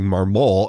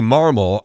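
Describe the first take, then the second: First: The name does not sound like marble. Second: The name sounds like the word marble. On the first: The speaker calls it wrong. "There are some people saying Marmol, and that's incorrect" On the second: The speaker calls it right. "It's like marble. Just think of marble"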